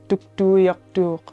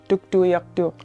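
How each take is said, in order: First: The name is pronounced the Inuvialuktun way. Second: The same.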